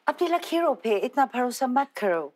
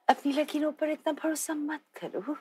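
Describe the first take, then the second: First: It is delivered with a British accent. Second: It is delivered in a seductive manner. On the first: The speaker calls it right. "British accent" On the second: The speaker calls it wrong. "in a seductive manner"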